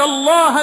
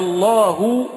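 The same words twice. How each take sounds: First: The word ends with a short 'a' vowel. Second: The word ends with a short 'u' vowel. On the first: The learned are the ones who fear God. The speaker calls it right. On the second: God is the one who fears the learned. The speaker calls it wrong.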